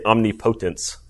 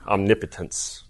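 First: The 'omni' part is clearly enunciated on its own. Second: The 'omni' part is blended into one word. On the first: "we tend to like really enunciate the omni" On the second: "We kind of make it one big word"

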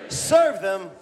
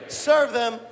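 The two takes are said the same way.

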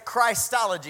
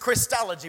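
First: The first vowel is long, as in Christ. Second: The first vowel is short, as in Chris. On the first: The speaker calls it wrong. "Some like to say Christology because it says Christ" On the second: The speaker calls it right. "The proper pronunciation is Christology"

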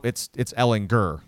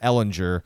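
First: The g is pronounced hard, as in go. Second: The g is pronounced soft, like j. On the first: The speaker calls it right. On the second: The speaker calls it wrong.

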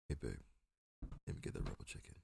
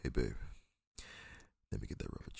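First: It is said quietly, without a seductive tone. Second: It is said in a seductive, sexy tone.

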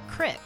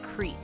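First: The vowel is short, rhyming with brick. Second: The vowel is long, rhyming with seek. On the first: This is the local way of saying it. "the way we say things too, like crick" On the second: This is the standard way of saying it. "it's not creek"

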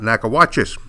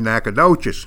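First: It is said with a Spanish-style pronunciation. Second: It is said with a local East Texan pronunciation. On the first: This is how outsiders would say the name. "not Nacogdoches" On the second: This is how locals say the name. "that's the way we pronounce it in East Texas. For example, we say Nacogdoches"

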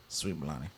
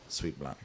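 First: The words are pronounced in an exaggerated way. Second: The words are pronounced smoothly and naturally. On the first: The speaker calls it wrong. "I even went too far" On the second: The speaker calls it right. "There we go. Smooth"

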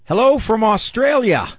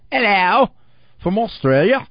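First: It is read in the speaker's normal accent. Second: It is read with a put-on foreign accent.

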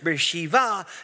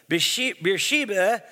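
First: The name is said the way locals pronounce it. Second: The name is said in a plain English pronunciation.

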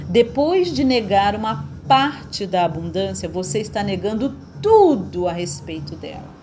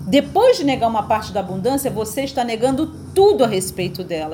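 First: The sentence is spoken very slowly. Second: The sentence is spoken at a normal pace.

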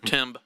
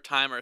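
First: The word ends on a b sound. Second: The word ends on an er sound. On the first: "Silent R-E" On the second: "silent B, replaced E-R"

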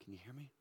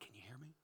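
No difference in how they are said.

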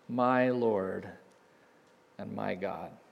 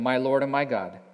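First: The words are said in an amazed, awed tone. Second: The words are read in a flat, plain tone.

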